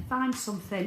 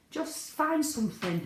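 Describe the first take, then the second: First: Said in the usual way. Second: Find drawn out and raised high, slowly; emphasis on find. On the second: Shown as a demonstration. Urging new members, stress on find. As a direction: lean hard on find, slow and high.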